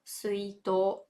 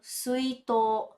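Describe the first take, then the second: First: The word ends with a long held o. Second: The same.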